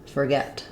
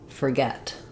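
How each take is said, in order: First: The first syllable has a reduced 'er' vowel. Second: The first syllable has a reduced 'er' vowel.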